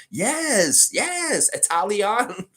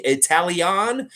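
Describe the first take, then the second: First: High, bright put-on Italian accent, Italian. landed with a fall; hammed-up Italian accent, much higher, voice changed, ending on a firm Italian; mock Italian accent. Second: Put-on higher, slowed, questioning Italian? in a playful accent; testing the word Italian? slowly, in a hammed-up Italian accent; mock Italian accent. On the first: Answering chat's praise of his accent, hammy mock Italian accent. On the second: Streamer tries his improving accent for chat, playful mock Italian. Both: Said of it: "Your accent is improving".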